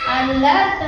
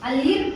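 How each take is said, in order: First: The second vowel sounds like 'uh'. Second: The second vowel sounds like 'ee'. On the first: The speaker calls it right. "ಅಲರ್ಟ್ ಅಂತ ಕರಿತೀವಿ" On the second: The speaker calls it wrong. "ಅಲಿರ್ಟ್ ಅನ್ನಲ್ಲ"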